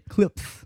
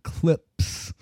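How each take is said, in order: First: The s sound is said with a lisp. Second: The s sound is said clearly. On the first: "It was like, clips. like Mike Tyson" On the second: "it wasn't clips"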